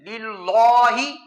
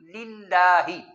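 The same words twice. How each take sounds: First: The L sound is thick and heavy. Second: The L sound is thin and light. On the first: The speaker calls it wrong. "लाम को मोटा पढ़ना ठीक नहीं है" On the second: The speaker calls it right. "उसको बारीक पड़ जाता है"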